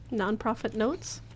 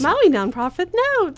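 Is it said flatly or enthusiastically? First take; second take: flatly; enthusiastically. First: It is said with little enthusiasm. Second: It is said with more enthusiasm.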